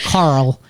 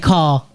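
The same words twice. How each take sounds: First: It is said in an American accent. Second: It is said in a British accent. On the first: "if I say it in like an American way, I pronounce the R L like" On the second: "like in English"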